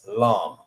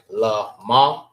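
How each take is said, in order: First: It is said as one joined syllable. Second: It is said as two separate syllables. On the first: The speaker calls it right. "when it's connected, ... the sound that it makes is lum" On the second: The speaker calls it wrong. "Instead of saying la ma"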